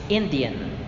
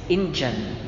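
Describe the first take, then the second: The two takes are said the same way.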